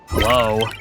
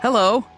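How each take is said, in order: First: It is said in a frustrated tone. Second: It is said in a happy tone.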